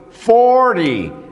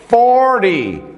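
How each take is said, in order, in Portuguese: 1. O T é suavizado, o R se liga ao Y. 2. O T é suavizado, o R se liga ao Y.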